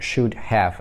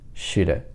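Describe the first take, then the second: First: Both words are said fully and separately. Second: It is squeezed very fast into two syllables. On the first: This is the written form. "это мы пишем" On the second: This is the form for very informal, fast speech. "Это очень быстрая речь, очень informal, как я это называю, экстремальное сокращение"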